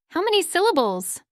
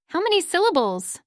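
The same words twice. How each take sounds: The two takes are said the same way.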